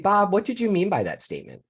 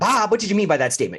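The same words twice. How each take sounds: First: It is asked in a calm, curious tone. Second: It is asked in a confrontational, accusing tone.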